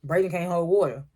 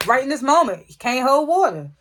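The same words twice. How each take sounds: First: Said in the usual way. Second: Higher, louder emphatic complaint; exasperated. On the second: Real, not acted. Vlogger complaining Braden snitched, loud and emphatic. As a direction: stress it, fed up with him.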